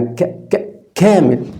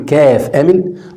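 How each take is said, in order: First: It begins with a bare, repeated k sound. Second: It begins with the full letter name kaaf. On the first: The speaker calls it right. "ولا الكاف يعني ك ك كامل" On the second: The speaker calls it wrong. "هو انت بتكتب كامل تقول كاف امل"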